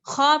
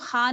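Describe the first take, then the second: First: खा rounded as "khaw"; full kha. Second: खा as a flat, open "khaa"; wrongly thin kha. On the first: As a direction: open the mouth round for खा. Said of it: "मुंह को गोलाई में खोलना है". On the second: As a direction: say खा light, with no rounding. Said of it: "खा नहीं पढ़ते". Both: Shown as a demonstration.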